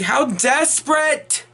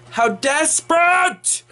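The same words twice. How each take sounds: First: Desperate drawn out slowly with weight; slow emphasis on desperate; stress on desperate. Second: Desperate pitched much higher and stretched very slowly; exaggerated drawn-out stress on desperate; heavy stress on desperate. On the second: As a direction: hit desperate high and slow. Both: Shown as a demonstration. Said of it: "and I do stress that word".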